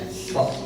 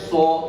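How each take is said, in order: First: The lips are only slightly rounded on the vowel. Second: The lips are strongly rounded, giving a dark vowel. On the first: This is the current recommended way. The speaker calls it right. "so cukup, gak, gak terlalu monyong" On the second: This is the older way of teaching it. The speaker calls it wrong. "Kalau dulu memang diajarkan so di ini banget"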